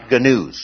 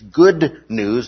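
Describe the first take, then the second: First: The two words are run together into one. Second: Both words are said fully and distinctly. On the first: The speaker calls it wrong. "not gnews" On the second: The speaker calls it right. "I mean to pronounce that very carefully. It's good news"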